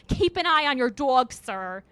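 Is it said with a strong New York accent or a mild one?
strong New York. It is said with a strong New York accent.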